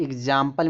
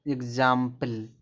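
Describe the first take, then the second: First: Said in the usual way. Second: example drawn out slowly, part by part; stretched-out model pronunciation of example; slow demonstration. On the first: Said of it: "आपको अगर बोलना है". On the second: Shown as a demonstration. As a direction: say example slowly so learners hear the g-z sound. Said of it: "जैसे आपको अगर बोलना है".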